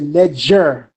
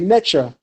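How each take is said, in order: First: The middle consonant is a g sound. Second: The middle consonant is a ch sound. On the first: This is the Old Kingdom form. "if you're looking at the Old Kingdom, it'll say Neger" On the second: This is the Middle Kingdom form. "If you're looking at the Middle Kingdom, you'll probably say Necher"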